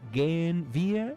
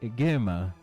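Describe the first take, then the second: First: Both words are said in full. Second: The words merge into one short form. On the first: "en vez de decir completo"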